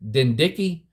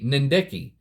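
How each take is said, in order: First: The word starts with a D sound. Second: The word starts with an N sound. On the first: "if the N is silent" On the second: "or it could be"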